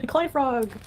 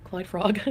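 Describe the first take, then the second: First: Laughing, higher and excited; delighted exclamation through a laugh. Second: Said in the usual way. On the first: Real, not acted. Laughing recognition.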